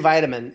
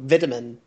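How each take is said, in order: First: It is said the American way. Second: It is said the British way.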